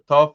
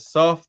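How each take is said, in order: First: The name begins with a t sound. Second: The name begins with an s sound.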